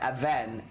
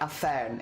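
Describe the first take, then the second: First: The middle consonant is a voiced V sound. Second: The middle consonant is a sharp F sound. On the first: The speaker calls it right. "it's v- a ven" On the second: The speaker calls it wrong. "it shouldn't sound like a fern"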